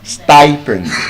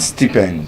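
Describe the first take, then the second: First: The first vowel is the diphthong 'eye'. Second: The first vowel is a short i sound. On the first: The speaker calls it right. "Stipend. Yes" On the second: The speaker calls it wrong. "Not stipend"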